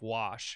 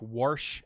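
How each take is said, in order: First: The word is said without any R sound. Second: An R sound is added inside the word. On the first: This is the usual way to say it. "instead of wash" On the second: This is how some local people said it. "would throw R's into things randomly like wash"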